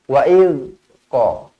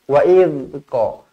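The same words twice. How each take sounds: No difference in how they are said.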